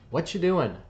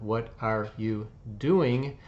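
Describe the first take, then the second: First: It is said quickly, with words run together. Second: It is said slowly, with every word clear. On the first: "if we were talking quickly" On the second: "if we slow down"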